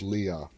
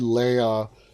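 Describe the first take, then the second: First: The name does not sound like the princess's name. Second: The name sounds like the Star Wars princess's name. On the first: "I think the right way to pronounce it is Leah" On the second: "I keep going to my Star Wars, and it's like Princess Leia"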